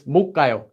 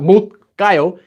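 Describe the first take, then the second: First: The final consonant of the first syllable is barely audible. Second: The final consonant of the first syllable sounds strong. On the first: The speaker calls it right. "You're saying it very quickly, so it kind of becomes silent" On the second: The speaker calls it wrong. "It's not"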